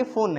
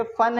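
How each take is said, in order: First: "फुन" with a rounded oo vowel; wrong oo reading. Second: "फन" with a short uh vowel; correct short vowel. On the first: Teacher testing pupils with a misreading, "फुन" with oo. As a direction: say "फुन" with U as in "put". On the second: Teacher offering the right option, "फन" with short uh. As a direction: say "फन" rhyming with "sun". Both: Shown as a demonstration. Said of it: "ये फन है कि फुन है".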